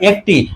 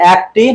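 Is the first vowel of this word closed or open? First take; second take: closed; open. First: The first vowel is a closed 'e' sound. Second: The first vowel is an open 'a' sound. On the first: The speaker calls it right. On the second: The speaker calls it wrong.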